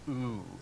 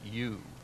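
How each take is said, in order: First: The vowel is a pure 'oo' sound. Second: The vowel starts with a 'y' glide, 'you'. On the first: The speaker calls it right. "It's pronounced as a double O" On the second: The speaker calls it wrong. "another vowel like U is not pronounced as U"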